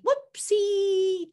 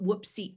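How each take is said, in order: First: High, drawn-out whoopsie; happy praise sound. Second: Said in the usual way. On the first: Shown as a demonstration. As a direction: sing out WHOOPSIE slowly, high on a long last syllable. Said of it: "to sound like good dog". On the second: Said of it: "I don't want whoopsie".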